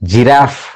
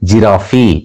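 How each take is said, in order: First: The word ends in an 'f' sound. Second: The word ends in an 'ee' sound. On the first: The speaker calls it right. "ఇంగ్లీష్లో జిరాఫ్ అంటారు" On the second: The speaker calls it wrong. "అంతే తప్ప"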